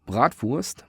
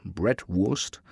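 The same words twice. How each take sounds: First: "Bratwurst" with German v-sound in wurst; German pronunciation. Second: "Bratwurst" with English w-sound in wurst; American pronunciation. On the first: Showing Americans the German word, "Bratwurst" said braht-voorst. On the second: Echoing how Americans say it, "Bratwurst" said brat-worst. English version of German word. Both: Shown as a demonstration.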